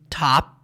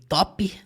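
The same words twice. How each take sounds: First: The final P sound is not released. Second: The final P sound is clearly heard. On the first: "Eles dizem top. ... realmente não sai o som do P" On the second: "seria o nosso português aqui"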